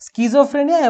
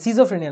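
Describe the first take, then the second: First: The word begins with an sk sound. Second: The word begins with a plain s sound. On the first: The speaker calls it right. "স্কিজোফ্রেনিয়া কিন্তু উচ্চারণ হবে" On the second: The speaker calls it wrong. "সিজোফ্রেনিয়া না"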